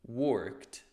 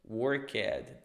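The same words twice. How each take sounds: First: The ending is a short 't' sound. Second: The ending is a separate 'ed' syllable. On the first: The speaker calls it right. "colocar um sonzinho de um T" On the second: The speaker calls it wrong. "não vou dizer"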